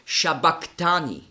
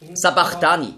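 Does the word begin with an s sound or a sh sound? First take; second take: sh; s. First: The word begins with a sh sound. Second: The word begins with a plain s sound. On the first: This is the original Aramaic pronunciation. The speaker calls it right. "auf Aramäisch ausgesprochen ist es Shabachthani" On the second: This is how many people read it. The speaker calls it wrong. "Sabachthani lesen viele"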